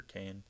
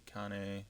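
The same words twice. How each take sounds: First: Said in the usual way. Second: Kane said oddly, not the usual one-syllable way; mispronounced name. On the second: Real, not acted. Gamer misreading a player's name on his roster, mispronounced. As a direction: say Kane the odd way, slip before correcting. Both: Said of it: "I don't know why I said it like that".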